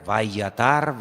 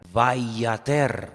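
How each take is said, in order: First: Vayatar with an A in the last syllable; vayatar, all A vowels to the end; contrasting vowel. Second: Vayater, ending on an E vowel; Hebrew pronunciation demo. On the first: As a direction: say vayatar, ending in -tar. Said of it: "las vocales se ponen diferentes". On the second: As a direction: spell out vayater by ear, last syllable -ter. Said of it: "se pronuncia de una forma diferente". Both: Shown as a demonstration.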